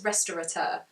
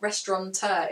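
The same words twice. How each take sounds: First: It is said with no N sound inside. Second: It is said with an N sound inside. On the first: The speaker calls it right. "There isn't an N in it" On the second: The speaker calls it wrong. "the word is not restaurateur"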